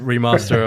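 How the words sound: It is said with a southern English accent.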